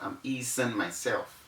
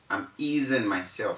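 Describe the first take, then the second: First: The s is sounded as an s. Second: The s is sounded as a z. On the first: The speaker calls it wrong. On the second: The speaker calls it right.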